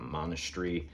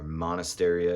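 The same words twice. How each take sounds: First: The word sounds British, with a reduced middle. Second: The word sounds American, with a fuller middle. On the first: The speaker calls it wrong. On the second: The speaker calls it right.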